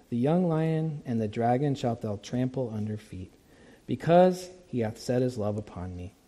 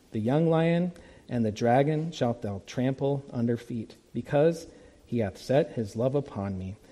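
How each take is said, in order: No difference in how they are said.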